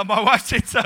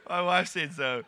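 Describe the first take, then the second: First: Loud comic blurt; blurted excuse. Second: Said in the usual way. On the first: Retold or imitated. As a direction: blurt it loudly, passing the blame.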